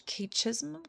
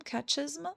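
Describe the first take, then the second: First: Catechism? tried as kay-chism, unsure and soft. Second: Catechism? said again as kat-e-chism, higher rising; corrected catechism. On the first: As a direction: fumble the word catechism?. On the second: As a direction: fix the word Catechism? with a questioning rise. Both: Real, not acted. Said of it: "Sorry, I apologize".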